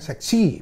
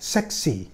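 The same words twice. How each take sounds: First: The stress is on the second syllable. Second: The stress is on the first syllable. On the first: The speaker calls it wrong. "bukan seksi" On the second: The speaker calls it right. "Kalau kita baca kan seksi"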